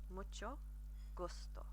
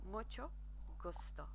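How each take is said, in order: The two takes are said the same way.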